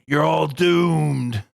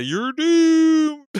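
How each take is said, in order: First: Slow ominous raspy drawl. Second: High, loud spooky warning; ominous doom voice. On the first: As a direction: drag out doomed like a prophet of doom. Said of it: "and he's like". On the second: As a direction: wail it like a doom prophet. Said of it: "Trey Parker did the". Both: Retold or imitated.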